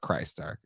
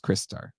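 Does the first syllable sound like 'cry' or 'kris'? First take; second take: cry; kris. First: The first syllable sounds like 'cry'. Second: The first syllable sounds like 'kris'. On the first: The speaker calls it wrong. "I can't just call it Christar" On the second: The speaker calls it right. "It's Kristar"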